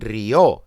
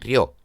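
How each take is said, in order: First: The vowels are split into two syllables. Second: The vowels are joined into one syllable. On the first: This is how it is said in Spain. "No dicen río" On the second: This is how it is said in most of Latin America. "dicen río"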